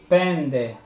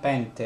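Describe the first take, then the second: First: The middle consonant sounds like nd. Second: The middle consonant sounds like nt. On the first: The speaker calls it right. "Pende e non pente, eh? Almeno in greco moderno" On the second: The speaker calls it wrong. "non pente"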